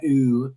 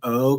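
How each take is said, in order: First: The vowel sounds like "ooh". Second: The vowel sounds like "oh". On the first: The speaker calls it wrong. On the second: The speaker calls it right.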